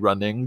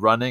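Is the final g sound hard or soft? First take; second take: hard; soft. First: The final g is hard and clearly heard. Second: The final g is soft and barely heard. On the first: "the way he pronounced the letter G was very hard" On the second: "Instead of running"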